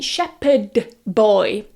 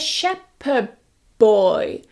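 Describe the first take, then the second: First: The final d of shepherd is a clear d. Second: The final d of shepherd sounds like b. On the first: "notice I'm not saying shepherd boy" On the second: "we're going to change that d to more of a b"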